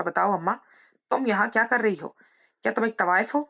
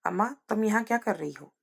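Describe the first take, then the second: First: Mildly raised, angry interrogation; heated, higher-pitched accusing questions; hateful demand. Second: Understated, stunned question to mother; restrained, halting disbelief; faltering shock. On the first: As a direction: demand an answer from mother with disgust. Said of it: "नफरत से पूछा". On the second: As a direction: ask with difficulty, barely believing it. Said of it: "बड़ी मुश्किल से हकलाते हुए". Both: A narrator's reading.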